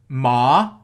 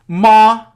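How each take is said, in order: First: The syllable carries the second tone. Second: The syllable carries the first tone.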